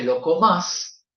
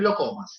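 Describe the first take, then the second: First: The stress is on the last syllable of comas. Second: The stress is on the first syllable of comas. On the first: The speaker sounds less educated. The speaker calls it wrong. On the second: The speaker sounds more educated. The speaker calls it right.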